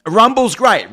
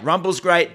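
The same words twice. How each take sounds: First: "Rumble's great" said much higher and louder, with a falling tune; emphatic. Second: Said in the usual way. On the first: Real, not acted. Answering a viewer about Rumble, emphatic. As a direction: burst out with it first.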